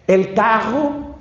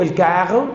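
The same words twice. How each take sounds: First: Carro con erre francesa, arrastrado y lento; carro a lo francés, con erre gutural y despacio; niño medio francés. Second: Said in the usual way. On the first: Retold or imitated. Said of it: "niño medio francés, creo yo". (carro con erre francesa de niño) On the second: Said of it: "que el niño dijo".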